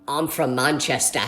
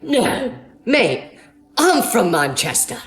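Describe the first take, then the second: First: Low, slow put-on British accent; fake British accent. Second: Imitated British accent, last phrase drawn out. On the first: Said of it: "I kept pretending to be British". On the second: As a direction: answer as a surprised Brit in a mock British accent. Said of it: "Something about British accents".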